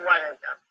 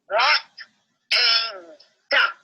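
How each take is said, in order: First: It is said plainly, without any flourish. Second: It is said in an exaggerated, imitated way.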